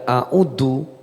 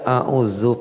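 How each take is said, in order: First: The middle consonant is a hard 'd' sound. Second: The middle consonant is a soft 'dh' sound. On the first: I ask God to send the devil's temptation back. The speaker calls it wrong. "pakai dal" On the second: I seek refuge in God from the accursed devil. The speaker calls it right. "pakai zal"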